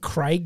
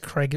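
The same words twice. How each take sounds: First: The vowel is a long 'ay' sound. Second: The vowel is a short 'eh' sound. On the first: The speaker calls it right. "It's fucking Craig" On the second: The speaker calls it wrong. "when people say Craig, it pisses me off"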